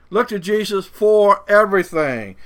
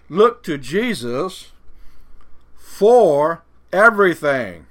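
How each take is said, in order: First: Said in the usual way. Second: "look to Jesus for everything" drawn out slowly; slow preacher emphasis on "for everything"; slow stressed point. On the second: Real, not acted. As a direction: lay each word down deliberately.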